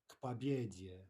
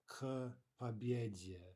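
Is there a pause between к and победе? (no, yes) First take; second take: no; yes. First: The two words run together without a pause. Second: A short pause separates the two words. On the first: The speaker calls it right. "We really want no pause whatsoever between those those two consonants" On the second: The speaker calls it wrong. "not к победе"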